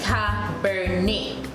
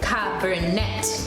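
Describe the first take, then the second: First: The final T sound is left silent. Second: The final T sound is pronounced. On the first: "in French, they will take out the T" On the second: "In English, it will be pronounced as Cabernet"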